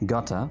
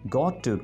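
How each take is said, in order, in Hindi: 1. शब्द आपस में जुड़कर एक छोटा शब्द बन जाते हैं। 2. दो अलग शब्द, हर एक पूरी तरह बोला जाता है। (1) "आप बोलेंगे gotta अगर आप अंग्रेजों जैसा बोलना चाहते हैं" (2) "Got to को"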